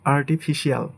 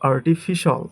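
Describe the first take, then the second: First: The ending is said as two syllables, shee-al. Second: The ending is said as one syllable, shal. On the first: The speaker calls it wrong. "এটাকে আমরা বলি" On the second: The speaker calls it right. "But এটা হবে"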